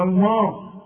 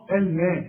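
First: "الماء" darkened into "almo"; wrong heavy vowel. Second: "الماء" with a thin, fronted "elmee" a; correct light vowel. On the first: Teacher showing what not to say, wrong heavy vowel. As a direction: thicken the m and a of "الماء". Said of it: "تقولش". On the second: Teacher correcting the student, correct light vowel. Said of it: "احنا قلنا الميم". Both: Shown as a demonstration.

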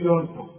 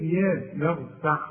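First: "يرفع" starting with a dark "yo"; wrong heavy ya. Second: "يرفع" opening on a thin, fronted "ya"; correct light ya. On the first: Teacher showing what not to say, wrong heavy ya. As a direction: thicken the first vowel of "يرفع". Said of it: "ما تقولش". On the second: Teacher modelling the Quranic ya, correct light ya. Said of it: "يا القرآن يا". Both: Shown as a demonstration.

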